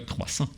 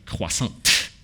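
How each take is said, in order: First: The final T sound is silent. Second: The final T sound is pronounced. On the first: The speaker calls it right. "that's how you pronounce it" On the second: The speaker calls it wrong. "Americans like Robert and whatever will say croissant, right? At the end"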